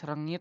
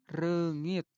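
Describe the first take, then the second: First: The first vowel is a plain e sound. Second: The first vowel is an eu sound. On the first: The speaker calls it wrong. "sanes rengit" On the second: The speaker calls it right. "Tapi reungit, E"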